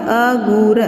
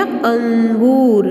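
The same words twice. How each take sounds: First: अगूर said plainly as a-goor, with no nasal before the g; wrong version without nasal. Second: अंगूर slowly, with a clear nasal ng before the g; correct nasal word. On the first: Teacher shows pupils the misspelled word अगूर, said without nasal. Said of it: "तो अगूर तो होता ही नहीं है". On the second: Teacher gives pupils the corrected word अंगूर, slow and nasal. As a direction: stretch out अंगूर and sound its anusvara on the first syllable. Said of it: "अ पे अनुस्वार लगाएंगे तो बनेगा अंगूर". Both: Shown as a demonstration.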